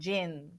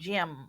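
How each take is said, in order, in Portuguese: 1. A palavra termina em vogal nasalizada, com os lábios abertos. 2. A palavra termina com os lábios fechados no m. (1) "ou ela está nasalizando"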